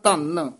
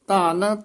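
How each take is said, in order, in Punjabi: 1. ਇਹ ਸ਼ਬਦ ਪੱਕੇ ਅਤੇ ਜ਼ੋਰ ਨਾਲ ਬੋਲਿਆ ਜਾਂਦਾ ਹੈ। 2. ਇਹ ਸ਼ਬਦ ਨਰਮ ਅਤੇ ਹਲਕੇ ਢੰਗ ਨਾਲ ਬੋਲਿਆ ਜਾਂਦਾ ਹੈ। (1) "ਦੂਜਾ ਧੰਨ ਕੱਸ ਕੇ ਬੋਲਣਾ" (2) "ਇੱਕ ਧੰਨ ਪੂਲਾ ਬੋਲਣਾ"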